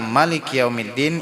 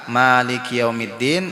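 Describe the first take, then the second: First: The first vowel of Maliki is kept short. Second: The first vowel of Maliki is held long. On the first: "ada yang mengatakan boleh juga kada panjang" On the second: "Ada yang mengatakan panjang"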